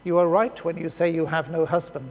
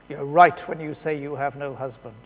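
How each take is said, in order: First: The tone is plain and neutral. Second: The tone is harsh and judgmental.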